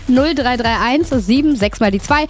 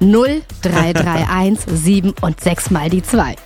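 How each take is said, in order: First: The number is said at normal speed. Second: The number is said very slowly.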